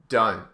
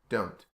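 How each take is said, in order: First: It is said in an Australian accent. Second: It is said in a British accent. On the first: "So Australian is don't"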